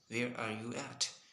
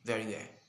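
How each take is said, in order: First: Every word is said, including 'are'. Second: The word 'are' is left out. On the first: This is the standard way to ask it. "normally we are pronouncing" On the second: This sounds casual and American. "if you wanna sound American, you should say"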